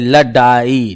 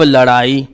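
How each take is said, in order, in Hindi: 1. बीच का व्यंजन कड़ा स्टॉप 'd' है। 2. बीच का व्यंजन जीभ का तेज़ फ्लैप है। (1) "ये लडाई लिखा है" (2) "नीचे बिंदी रख दी। अब लड़ाई"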